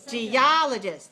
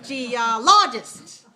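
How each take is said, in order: First: The stress is on the second syllable. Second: The stress is on the third syllable. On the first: The speaker calls it right. "That's the second one" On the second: The speaker calls it wrong. "Third one is geologist"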